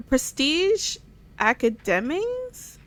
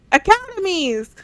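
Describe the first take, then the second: First: Slow, unsure, testing the word academies?; puzzled question. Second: Academies! called out higher and louder, falling; triumphant exclaim. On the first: Gamer sounding out an odd word, slow and puzzled. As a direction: sound out academies? slowly, doubting it. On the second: Gamer finally gets the word right, loud triumphant exclaim. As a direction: nail the word Academies! with a loud high cheer. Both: Shown as a demonstration.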